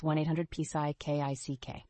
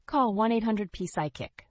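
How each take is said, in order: First: "Psy K I C K" spelled letter by letter. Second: Said in the usual way. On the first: Shown as a demonstration. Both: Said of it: "That's one eight hundred P Psy K I C K".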